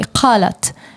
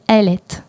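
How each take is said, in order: First: It starts with a deep q sound. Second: The q is dropped; it starts with a vowel.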